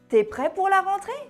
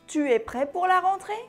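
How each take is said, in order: First: The u of 'tu' is dropped entirely. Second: The u of 'tu' is pronounced fully.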